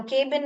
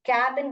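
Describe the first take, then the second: First: केबिन with long "ay", as "KAY-bin"; wrong long-A reading. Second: कैबिन with open "a", as "KAB-in"; correct short-A reading. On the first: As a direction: say केबिन with the vowel of "cake". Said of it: "केबिन नहीं बोलते हैं". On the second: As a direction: say कैबिन with the vowel of "cat". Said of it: "कैबिन बोलते हैं हम". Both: Shown as a demonstration.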